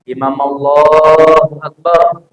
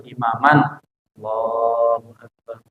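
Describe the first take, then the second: First: The words run together with no pause. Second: There is a pause before Allahu Akbar. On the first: The speaker is in a rush. The speaker calls it wrong. "Buru-buru banget kali. Ya nggak sempat dijeda" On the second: The speaker is not rushing. The speaker calls it right. "Yang bagus ya kita tunggulah"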